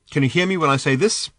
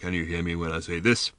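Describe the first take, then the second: First: It is said in an ordinary speaking pitch. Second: It is said in a very deep voice.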